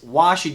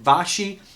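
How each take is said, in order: First: The name begins with a W sound. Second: The name begins with a V sound. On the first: "it's Washi, W A S H Y" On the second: "Is it Vashi?"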